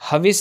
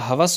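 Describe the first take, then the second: First: The second vowel is i. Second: The second vowel is a. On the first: The speaker calls it wrong. "नहीं होता" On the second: The speaker calls it right. "होता है"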